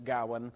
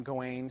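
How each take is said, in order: First: Gawain said GOW-un; first-syllable stress. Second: Gawain said guh-WAYN; last-syllable stress. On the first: Lecturer explaining how others say the name, first-syllable stress. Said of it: "the emphasis is on the first syllable". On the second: Lecturer explaining how many people say the name, second-syllable stress. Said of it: "the emphasis tends to be on the last syllable". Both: Shown as a demonstration.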